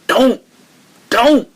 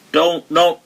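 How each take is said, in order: First: Don't, don't, each word punched higher and a bit louder; with emphasis. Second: Said in the usual way. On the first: Shown as a demonstration. Teacher showing the Prophet's emphatic command, forceful. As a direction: hit each Don't hard as a firm order. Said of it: "like, with emphasis". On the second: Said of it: "He didn't just say".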